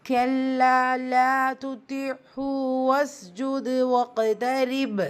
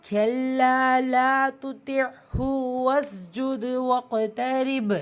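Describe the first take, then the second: Both takes have the same delivery.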